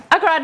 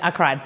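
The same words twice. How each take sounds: First: High, loud excited squeal; emotional squeal. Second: Said in the usual way. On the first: Real, not acted. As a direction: squeal it out, overcome. Repeats I cried, much higher, louder.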